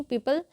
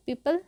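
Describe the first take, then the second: First: "पीपल" with a short a, pee-pal; corrected pee-pal for "पीपल"; correct pronunciation. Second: "पीपल" wrongly ending in u, pee-pul; wrong pronunciation. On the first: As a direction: say पीपल like the peepal tree. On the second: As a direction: say पीपल with a rounded last vowel. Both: Shown as a demonstration. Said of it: "पीपल नहीं".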